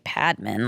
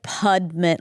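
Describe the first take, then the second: First: The name is said with its usual pronunciation. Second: The name is said with an Indian pronunciation.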